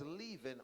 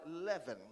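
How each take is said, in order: First: "leaven" said LEE-ven; first vowel of "leaven" as ee; long-E pronunciation. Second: "leaven" said LEV-en; first vowel of "leaven" as eh; short-E pronunciation. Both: Shown as a demonstration. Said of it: "however you pronounce it".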